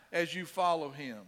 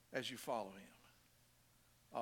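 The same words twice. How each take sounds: First: Said in the usual way. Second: Much softer, lower and slower; hushed repeat. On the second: Real, not acted. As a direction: let the phrase sink in, slow and quiet. Softly repeats the phrase for emphasis.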